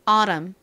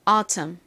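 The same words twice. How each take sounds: First: The middle t is a soft flapped sound. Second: The middle t is a crisp, clear t. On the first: "미국식 발음으로 T에 살짝 버터를 발라서" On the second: "먼저 또박또박 발음해 볼게요. T를 굴리지 않고"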